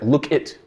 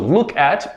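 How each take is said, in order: First: The second word is reduced to sound like 'it'. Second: The second word has a full 'at' vowel.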